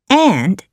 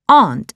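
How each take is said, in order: First: The vowel sounds like the one in pants. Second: The vowel sounds like the one in part. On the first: This is how it is said in America. "In America, the same word is pronounced as aunt. Aunt as in pants" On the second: This is how it is said in Singapore and England. "in Singapore and England, we pronounce aunt as aunt. Aunt as in part"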